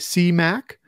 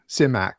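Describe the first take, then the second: First: The first syllable has a long 'ee' vowel. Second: The first syllable has a short 'i' vowel. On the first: "they say C as in S-E-A" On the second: "or is it Sim, S-I-M-Ac"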